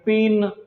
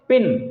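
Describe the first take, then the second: First: The vowel is drawn out long. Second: The vowel is clipped short. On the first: The speaker calls it wrong. "आप इसे पिन नहीं बोलते" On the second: The speaker calls it right. "Sound हम इसको बहुत short करते हैं"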